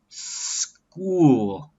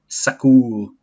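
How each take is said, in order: First: The s runs straight into the k sound. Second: A vowel is inserted after the s sound. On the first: The speaker calls it right. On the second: The speaker calls it wrong.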